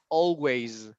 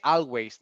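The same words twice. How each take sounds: First: The first vowel sounds like o. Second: The first vowel sounds like a. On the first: The speaker calls it right. "it's oh, always" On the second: The speaker calls it wrong. "don't say always"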